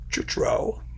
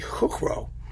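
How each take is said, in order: First: The name is said with plain English sounds. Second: The name is said with Czech sounds. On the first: "Chutro is easier to say" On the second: "I would pronounce it in, in Czech. It would be Kukro, probably"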